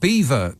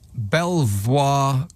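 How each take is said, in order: First: It is said like 'Beaver'. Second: It is said as spelled, like 'Bel-vwar'.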